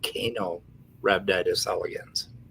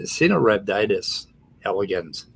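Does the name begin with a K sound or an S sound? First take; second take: K sound; S sound. First: The name begins with a hard K sound. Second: The name begins with a soft S sound. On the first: The speaker calls it wrong. "It's not" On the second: The speaker calls it right. "the C is soft. It, it, it's an S sound"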